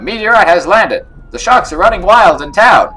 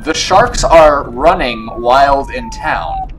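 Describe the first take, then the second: First: Higher, louder urgent announcement; excited, raised-voice town bulletin; game character announcing alarm. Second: Slow, loud word-by-word reading; drawn-out, incredulous announcement; slow, emphatic repeat. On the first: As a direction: sound the alarm loudly. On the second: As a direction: spell it out slowly and loudly. Repeats line slowly after "Wait, what?. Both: Acted.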